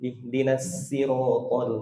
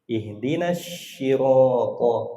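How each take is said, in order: First: The word sirata starts with a plain s sound. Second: The word sirata starts with an sh sound. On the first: The reading is still acceptable. The speaker calls it right. "Suruh dia pakai sin dulu" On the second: The prayer recitation becomes invalid. The speaker calls it wrong. "kalau pakai shin batal Fatihahnya"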